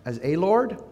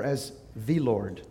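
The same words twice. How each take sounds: First: "a" said as long "ay", rising into "Lord"; stress on A. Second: "the" said as "thee", slow and falling; weight "the" slowly, settling down on "Lord"; stress on THE. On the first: Pastor asking how they think of God, stressing "a". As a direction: lean on "a" with a questioning lift. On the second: Pastor offering the other answer to his question, stressing "the". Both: Shown as a demonstration. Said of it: "let's stress the first word".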